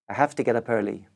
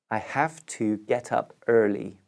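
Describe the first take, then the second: First: It is said quickly with have to squashed. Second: It is said slowly with each word clear.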